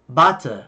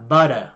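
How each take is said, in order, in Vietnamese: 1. Câu này được nói bằng giọng Anh. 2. Câu này được nói bằng giọng Mỹ.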